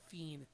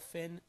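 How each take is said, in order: First: It is said with a Spanish pronunciation. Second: It is said with an English pronunciation. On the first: "in Portuguese and in Spanish as fin" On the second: "I say L. Finn"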